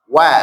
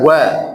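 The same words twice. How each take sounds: First: WA light and open; correct thin wa. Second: WA with a heavy, rounded vowel; wrong thick wa. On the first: Teacher corrects the class, wa said thin. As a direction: lighten the vowel of wa. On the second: Teacher rejects this reading, wa said thick. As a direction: darken wa as the mistake. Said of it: "Tidak wa". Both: Shown as a demonstration.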